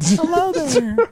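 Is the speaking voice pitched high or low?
high. It is said in a put-on higher voice.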